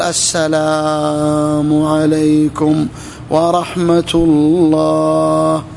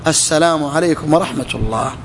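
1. تُمَدّ التحية وتُطال. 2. تُقال التحية قصيرة ومقطوعة. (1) "من يطيل" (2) "السنة نحذف السلام"

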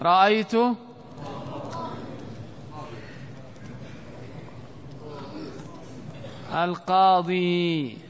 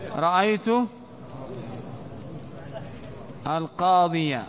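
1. تنتهي الكلمة الأخيرة بياء ممدودة عادية. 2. تنتهي الكلمة الأخيرة بفتحة قصيرة مضافة. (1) "رأيت القاضي خطأ" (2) "الصواب رأيت القاضية"

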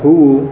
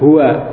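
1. Kata ini berakhir dengan vokal 'u'. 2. Kata ini berakhir dengan vokal 'a'. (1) "tidak huwu" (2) "Tetapi tetap dengan fathah"

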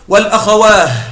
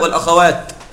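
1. الكلمة تنتهي بصوت h. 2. الكلمة تنتهي بصوت t. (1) "وقف بالهاء" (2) "الأصل أن يقف بالتاء"

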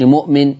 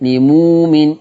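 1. تُسمع همزة قبل الحركة. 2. الهمزة تتحول إلى ضمة طويلة.

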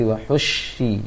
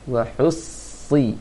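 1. Konsonannya dilafalkan sebagai bunyi sh. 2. Konsonannya adalah bunyi s yang tebal dan berat. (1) "Jangan baca seperti wahushi, itu baca shin" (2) "Usahakan saja baca sad seperti sin. Si yang ditebalkan"

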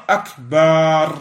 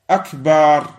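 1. Le mot est prononcé sous une forme altérée. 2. Le mot est prononcé sous une forme altérée.

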